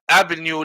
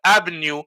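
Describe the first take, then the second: No difference in how they are said.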